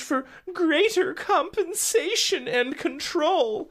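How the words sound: It is read in a light, fluffy put-on voice. It sounds like harmless corporate news. The speaker calls it wrong. "I shouldn't even do my fluffy P R voice there"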